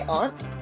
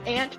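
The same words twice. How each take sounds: First: The vowel is an open 'aw' sound. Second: The vowel is like the one in 'ant'. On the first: This follows the spelling. "but I say aunt because that's how it's fucking spelled" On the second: This is how people say it locally. "where I'm from in Ohio, it's aunt"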